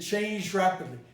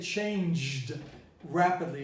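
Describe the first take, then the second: First: The two words are joined with a palatalized sound. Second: The two words are kept separate, without palatalization. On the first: The speaker calls it right. "I said changed rapidly. Palatalized" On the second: The speaker calls it wrong. "I didn't say changed rapidly"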